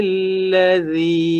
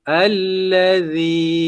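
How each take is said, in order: Both takes have the same delivery.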